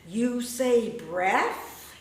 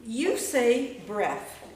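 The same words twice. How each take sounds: First: Very slow, rising on say; slow rising line. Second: Slow, loud, falling on breath; slow spoken poem. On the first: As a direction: stretch it out, lifting at the end. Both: Shown as a demonstration. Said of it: "I wrote this little sound piece".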